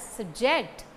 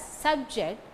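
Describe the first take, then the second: First: SubJECT, short sub and strong JECT; stress on second syllable. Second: SUBject, first syllable stressed, second short. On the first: Lecturer showing students the verb, subJECT stressed on JECT. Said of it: "stress falls on the second syllable". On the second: Lecturer showing students the noun, SUBject stressed on SUB. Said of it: "stress falls on the first syllable". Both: Shown as a demonstration.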